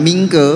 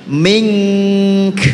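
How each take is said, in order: First: "mingke" with a voiced vowel after the k; added vowel. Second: "Mink" drawn out on ng, ending in an airy k; correct stop on k. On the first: Teacher shows what not to do when stopping, voweled "mingke". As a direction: end "mingke" on a vowel instead of breath. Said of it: "Jangan mingke". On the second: Teacher models how to stop on mingka, held "Mink". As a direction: hold "Mink" long, release only breath after k. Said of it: "wakofnya bagaimana cara bacanya?". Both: Shown as a demonstration.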